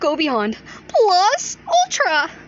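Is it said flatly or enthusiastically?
enthusiastically. It is said with lively enthusiasm.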